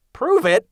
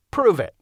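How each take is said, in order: First: High, louder disbelieving repeat of Prove it; incredulous echo. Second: Said in the usual way. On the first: Acted. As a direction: throw Prove it back, amazed he'd ask. Bill echoes in disbelief.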